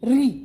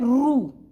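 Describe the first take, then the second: First: It is pronounced with an 'ee' vowel, like ri. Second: It is pronounced with an 'oo' vowel, like ru. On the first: This is how most Hindi speakers say it. "आजकल हिंदी में इसका उच्चारण री के समान होता है" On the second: This is how it is said in western and southern regions. "Maharashtra, Gujarat और दक्षिण में इसका उच्चारण होता है रू"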